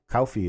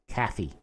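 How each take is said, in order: First: It is said in a Southern accent. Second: It is said in a northern New York accent.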